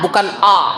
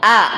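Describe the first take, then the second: First: The vowel is heavy and thick. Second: The vowel is light and thin. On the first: The speaker calls it wrong. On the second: The speaker calls it right. "Tetap tarqiq ini yang harus dijaga"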